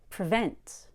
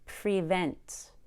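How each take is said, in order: First: The first vowel is a relaxed schwa. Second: The first vowel is a clear long E. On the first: The speaker calls it right. "Pre becomes pr" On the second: The speaker calls it wrong. "Notice that I don't say prevent. We don't need to be that clear on pre"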